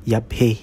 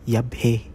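Both takes have the same delivery.

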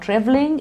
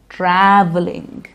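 First: The first vowel is not an 'a' sound. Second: The first vowel is an 'a' sound. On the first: The speaker calls it wrong. "It's not traveling" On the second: The speaker calls it right. "we use the a sound in traveling"

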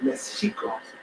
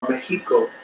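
First: The middle consonant is a soft sh sound. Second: The middle consonant is a strong, harsh X sound. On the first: This is how the native people said it. "the Indians invariably pronounced it" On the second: This is how the conquerors said it. "strongly pronounced all of the X's"

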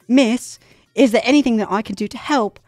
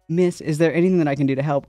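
First: It is read in a put-on British accent. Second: It is read in the speaker's usual accent.

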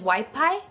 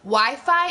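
First: The word is said with a p sound. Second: The word is said with an f sound.

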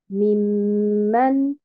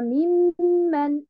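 First: Both syllables carry stress. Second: Only the first syllable carries stress. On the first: The speaker calls it right. "Nous avons la première haraka et la deuxième haraka aussi" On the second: The speaker calls it wrong. "et non pas"

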